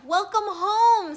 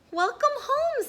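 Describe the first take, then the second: First: Higher, louder, slow greeting; louder, slower booming welcome; hearty welcome. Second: Much higher, bright greeting; higher, louder sing-song welcome; cheerful welcome. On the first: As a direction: greet her warmly. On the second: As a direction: welcome her home gladly. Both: Acted.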